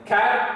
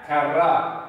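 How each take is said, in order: First: The final R is short and light. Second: The final R is pressed and strongly rolled.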